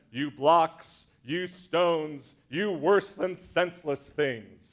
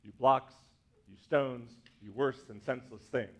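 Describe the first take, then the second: First: Five beats hit hard and slow; measured Shakespeare line with five loud beats; stressed iambic meter. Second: Five beats, fading lower and softer; softer meter demo. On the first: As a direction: punch each stress of the line. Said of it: "Five beats". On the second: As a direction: tap out the beats again, trailing off. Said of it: "That's meter". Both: Shown as a demonstration.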